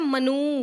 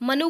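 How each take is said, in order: First: The final vowel is long. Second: The final vowel is short. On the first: The speaker calls it wrong. "बड़ा ऊ बोलते हैं वो लोग" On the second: The speaker calls it right. "लिखते छोटा ऊ है"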